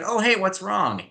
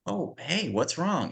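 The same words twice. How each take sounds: First: High, breezy and unbothered, same as the insult; mock-cheery concern with no change in tone; bright chirpy what's wrong, as if nothing happened. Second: Softer, caring what's wrong; soothing a crying girl; tender, quiet check-in; gentle concern. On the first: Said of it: "in the exact same inflection and tone". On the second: Retold or imitated. Actress gently asks crying girl.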